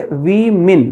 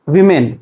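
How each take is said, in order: First: "women" as wi-min; "women" ending in min, not men; correct women. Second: "women" as vi-men, open e at the end; "women" ending like the word men; wrong women. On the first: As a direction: say "women" slowly, wi-min, i in both syllables. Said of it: "you have to say women". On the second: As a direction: say "women" with men as the last syllable. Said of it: "You can't say". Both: Shown as a demonstration.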